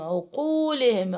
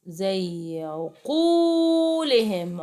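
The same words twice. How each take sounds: First: Said in the usual way. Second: "عقولهم" stretched very slowly, lengthening the long و; drawn-out teaching demo. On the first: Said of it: "قاف عليها ضمة". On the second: Shown as a demonstration. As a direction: sound out "عقولهم" so the madd can be heard. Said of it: "عقولهم قاف عليها ضمة". (مدّ الواو في "عقولهم" ببطء شديد)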